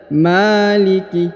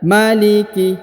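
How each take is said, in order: First: The first vowel 'ma' is held long. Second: The first vowel 'ma' is kept short. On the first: The speaker calls it wrong. "pemula itu membaca maliki. Ya padahal tidak boleh seperti itu" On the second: The speaker calls it right. "Seharusnya dibaca maliki"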